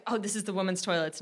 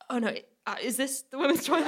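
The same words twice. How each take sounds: First: "this is the women's toilets" as a quiet, level statement; quietly inform someone that "this is the women's toilets"; "this is the women's toilets", soft, with no questioning lift; stated, not asked. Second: "is this the women's toilet?" higher, after a flustered stumble; backtrack, lifting "is this the women's toilet?" into a hesitant question; "is this the women's toilet?" pitched up, mock-uncertain; rephrased as question. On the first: Retold or imitated. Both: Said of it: "tried to just rephrase it as a question".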